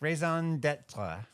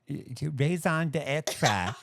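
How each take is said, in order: First: It is said with a plain English accent. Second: It is said with a French accent. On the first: The speaker calls it wrong. "I didn't hear the French accent" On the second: The speaker calls it right. "Is that better?"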